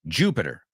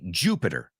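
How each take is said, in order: First: The word has English-style sounds. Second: The word has English-style sounds.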